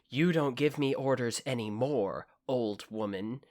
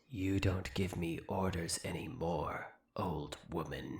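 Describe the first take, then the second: First: It is said in a flat, plain voice. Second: It is said in a dramatic Darkling voice.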